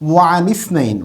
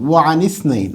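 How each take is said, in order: No difference in how they are said.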